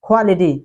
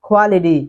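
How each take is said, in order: The two takes are said the same way.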